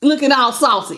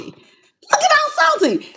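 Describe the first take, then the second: First: Said in the usual way. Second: High, slow mocking "Looking all salty". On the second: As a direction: tease them high and slow.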